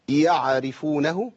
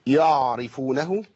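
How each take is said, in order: First: يعرفونه with a wrongly voiced ain, drawn out slowly. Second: يعرفونه with the ain dropped, slow; wrong ain. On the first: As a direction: stretch يعرفونه with a faulty ain. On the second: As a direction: say يعرفونه slowly, swallowing the ain. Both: Shown as a demonstration. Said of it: "كل دي أخطاء بنسمعها".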